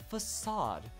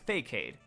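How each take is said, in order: First: The middle consonant is a soft S sound. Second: The middle consonant is a hard K sound. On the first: The speaker calls it right. "you're an idiot, it's facade" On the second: The speaker calls it wrong. "that is Fakeade"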